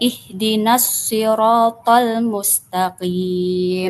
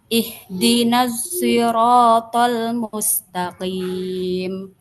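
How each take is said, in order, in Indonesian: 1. Sirat diawali dengan bunyi s yang berat dan emfatis. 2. Sirat diawali dengan bunyi s yang condong ke z. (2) "bi ismam sod zayan"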